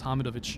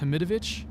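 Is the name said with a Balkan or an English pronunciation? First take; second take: Balkan; English. First: The name is said with native Balkan sounds. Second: The name is said with Western English sounds. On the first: "if you want to pronounce it correctly like we do in the Balkans" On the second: "if you want to pronounce it like people in the West do"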